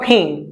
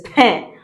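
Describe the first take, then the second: First: Pain said like the English word; wrong English-style pain. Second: Pain with a nasal "in" vowel; French nasal pain. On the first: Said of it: "It's not pain". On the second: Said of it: "It is pain". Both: Shown as a demonstration.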